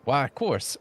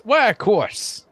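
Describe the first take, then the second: First: Softer, modest assent; mild agreement. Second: High, slow, delighted assent; eager agreement. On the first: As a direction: agree readily but gently. Florist gratefully agrees, first take. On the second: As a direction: swoop up high and draw it out. Florist repeats it with more enthusiasm. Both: Acted.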